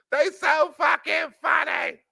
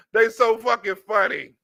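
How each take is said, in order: First: Laughing shout. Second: Said in the usual way. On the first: Real, not acted. Repeated remark shouted.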